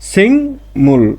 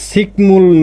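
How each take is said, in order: First: The first syllable ends in an ng sound. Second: The first syllable ends in a k sound. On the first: The speaker calls it right. "আমরা বলবো কি সিংমূল" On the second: The speaker calls it wrong. "সিকমূল না বলে"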